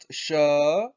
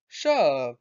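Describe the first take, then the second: First: The pitch rises through the word. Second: The pitch falls through the word. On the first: It means time. "when the tone goes up" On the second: It means thing. "when the tone goes down"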